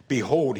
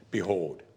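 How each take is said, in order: First: Behold rung out louder; proclaimed. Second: Said in the usual way. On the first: Shown as a demonstration. Preacher repeating Jesus' word, proclaimed louder. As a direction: announce Behold like a herald.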